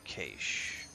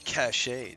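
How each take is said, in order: First: The word is said in a plain, everyday way. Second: The word is said in a fancy, posh way.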